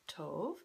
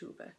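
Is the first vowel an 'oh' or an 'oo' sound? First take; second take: oh; oo. First: The first vowel is an 'oh' sound. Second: The first vowel is an 'oo' sound. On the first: "in English, we would pronounce it like Tove" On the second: "in Swedish, ... sometimes it makes an U sound ... so it's pronounced Tuve"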